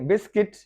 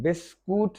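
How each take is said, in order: First: The second syllable has an 'i' vowel. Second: The second syllable has an 'oo' vowel. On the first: The speaker calls it right. "यू silent है" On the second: The speaker calls it wrong. "बिस्कूट नहीं"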